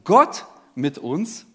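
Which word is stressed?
Gott. The stress is on the word Gott. The focus is on who is with us: God himself. "bei jedem Punkt liegt die Betonung auf einem anderen Wort"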